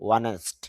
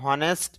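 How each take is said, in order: First: The word starts with a vowel, no h. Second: The word starts with an h sound. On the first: The speaker calls it right. "এখানে এইচ এর উচ্চারণ হবে না" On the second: The speaker calls it wrong. "অনেকে হনেস্ট বলে, হনেস্ট না"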